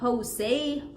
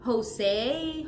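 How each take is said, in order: The two takes are said the same way.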